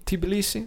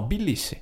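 First: The word begins with an audible T sound. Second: The word begins without any T sound. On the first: "Do you pronounce the T?"

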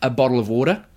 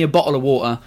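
First: The T sounds are said like D sounds. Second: The T sounds are replaced by glottal stops. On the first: "They do it like the Americans" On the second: "They're all glottal stops"

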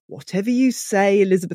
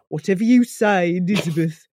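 First: It is said in the speaker's own accent. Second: It is said imitating Vince's accent.

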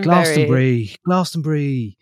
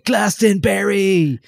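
First: The ending is a short 'bree' in an English accent. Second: The ending is a full 'berry' in an American accent. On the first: "the English like Glastonbury" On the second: "all the Americans always say Glastonbury"

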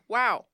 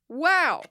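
First: It sounds moderately excited. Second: It sounds very excited.

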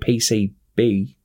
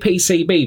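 First: There is a pause between C and B. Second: The three letters run together without a pause. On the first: It sounds like a bee who is a police constable. "but you pause after the second letter" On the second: It is just the name. "if you say PCB"

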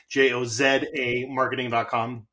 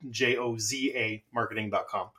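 First: The letter Z is said as zed, Canadian-style. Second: The letter Z is said as zee, American-style.

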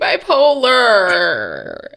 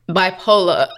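First: The final R is hard and strongly pronounced. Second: The final R is soft and barely pronounced. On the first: "It's different" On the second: "not enunciating it"

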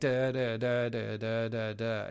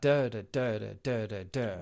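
First: All syllables get nearly equal stress. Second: Stressed and unstressed syllables contrast strongly.

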